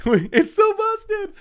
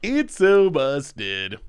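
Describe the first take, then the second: First: Much higher, slow squeaky voice. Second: Said in the usual way. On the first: Shown as a demonstration. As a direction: squeal it out slowly.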